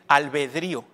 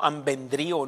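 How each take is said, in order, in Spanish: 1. La palabra empieza con 'al' y no tiene 'n'. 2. La palabra empieza con 'am' y lleva una 'n'. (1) "para que lo pronuncien bien. Albedrío" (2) "no ambendrío. No sé cómo he oído gente que dice así"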